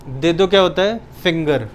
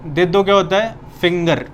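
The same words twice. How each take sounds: The two takes are said the same way.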